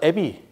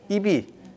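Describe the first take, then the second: First: The first vowel sounds like 'eh'. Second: The first vowel sounds like 'ee'. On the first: This is the later, changed form of the word. "발음이 바뀌어서 애비" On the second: This is the original word for ear and nose.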